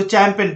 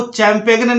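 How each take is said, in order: First: चैंपेन ending "-pen", no G; silent G. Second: चैंपेगन with a hard G before the N; G sounded. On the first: Teacher giving the right reading, G silent in चैंपेन. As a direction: drop the G from चैंपेन. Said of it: "इसको चैंपेन पढ़ना है". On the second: Teacher warning students, G pronounced in चैंपेगन. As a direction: voice the mistaken G in चैंपेगन. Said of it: "चैंपेगन नहीं पढ़ना है". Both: Shown as a demonstration.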